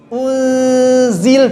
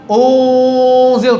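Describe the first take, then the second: First: The nasal sound is light and thin. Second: The nasal sound is thick and heavy. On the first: The speaker calls it right. "harusnya tarik untuk tipiskan" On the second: The speaker calls it wrong.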